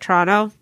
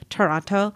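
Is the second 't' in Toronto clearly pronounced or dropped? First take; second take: dropped; pronounced. First: The second t is dropped in a relaxed way. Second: The second t is clearly and carefully pronounced. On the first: "it's like Toronto" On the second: "I'm pronouncing Toronto like Toronto"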